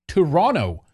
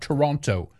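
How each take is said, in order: First: It is pronounced the Canadian way. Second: It is pronounced a non-Canadian way. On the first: The speaker calls it right. "To say it right" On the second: The speaker calls it wrong. "Not Toronto"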